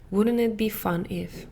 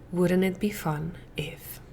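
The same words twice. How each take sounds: First: Said in the usual way. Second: Hushed, gently curious whisper; a soft inviting whisper; soft whispered question. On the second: Shown as a demonstration. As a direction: whisper it softly, playful. Gentle quoted thought.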